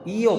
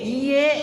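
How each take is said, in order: First: The word ends with an o vowel. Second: The word ends with an e vowel. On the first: "iyo pakai O" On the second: "pakai E"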